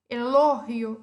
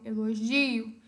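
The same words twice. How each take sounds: First: It is said with Spanish word stress. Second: It is said with Portuguese word stress.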